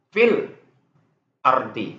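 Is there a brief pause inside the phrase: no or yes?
yes. There is a brief stop between the two words. "nah itu tuh saktah namanya"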